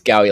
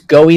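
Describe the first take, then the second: First: The name rhymes with Howie. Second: The name rhymes with Hoey. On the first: The speaker calls it right. "I mean, it's it's Gowie like Howie" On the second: The speaker calls it wrong. "it's Goey like Hoey"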